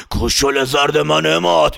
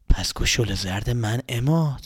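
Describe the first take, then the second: First: Slow, laughing menacing monster voice; slow taunting creature laugh; laughing dragon voice. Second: Low, slow looming dragon voice; low, slow menacing creature. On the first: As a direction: gloat through a laugh like a dragon. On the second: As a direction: draw it out like a monster. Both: Acted. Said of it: "مثل یه اژدها".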